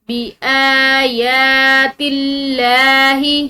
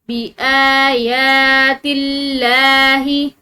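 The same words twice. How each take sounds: Both takes have the same delivery.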